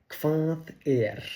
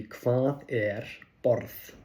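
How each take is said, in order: First: "Hvað er" said as kvath air with a raised start; a question to a native speaker; Icelandic question demo. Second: "Hvað er borð" slowly, each word apart, rising; slow classroom model; slow Icelandic demo. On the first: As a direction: ask "Hvað er" like a curious learner. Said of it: "and ask them". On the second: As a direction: spell it out slowly for a learner. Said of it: "So in this case, it would be". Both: Shown as a demonstration.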